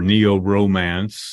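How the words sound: It is said with an American English pronunciation.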